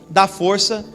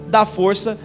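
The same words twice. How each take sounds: The two takes are said the same way.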